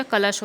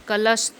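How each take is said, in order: First: कलश ending in sh; correct pronunciation. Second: कलश ending in s; wrong pronunciation. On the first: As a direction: say कलश as kalash. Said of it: "कलश होता है". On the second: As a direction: say कलश as kalas, with no sh. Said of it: "कलश नहीं होता". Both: Shown as a demonstration.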